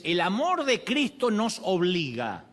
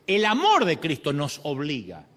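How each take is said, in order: First: Slow reading, leaning on amor; "amor" drawn out and stressed in a slow scripture quote; slow emphatic quote. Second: Said in the usual way. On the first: Shown as a demonstration. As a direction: read it slowly, pressing on "amor". Quoting scripture, then repeating it.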